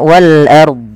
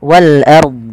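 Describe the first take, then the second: The two takes are said the same way.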